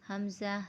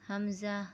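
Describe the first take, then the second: The two takes are said the same way.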